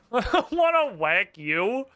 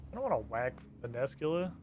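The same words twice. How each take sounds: First: Slow, louder, laughing protest. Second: Soft reluctant murmur; quiet. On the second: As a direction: say it softly, unwilling. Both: Real, not acted.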